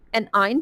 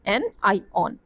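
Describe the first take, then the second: First: The word ends with an 'ine' sound. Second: The word ends with an 'ion' sound. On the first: The speaker calls it wrong. "सब एनाइन पढ़ते हैं" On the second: The speaker calls it right. "ये word होता है एनाइऑन"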